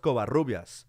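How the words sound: Said in a Spanish way, with a rolled R. It shows pride in the speaker's culture and heritage. "especially the rolling of the R's"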